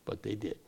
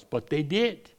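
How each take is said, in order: First: Much softer, falling away; hushed repeat. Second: DID lifted high with a rising end; emphatic DID. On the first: Preacher lamenting what the crowd did, hushed. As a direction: drop the voice right down on the repeat. Repeated softly after emphatic take. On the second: Preacher lamenting the crowd's choice, emphatic DID. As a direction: push "did" up, in full voice. Emphatic first take before quiet repeat. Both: Real, not acted.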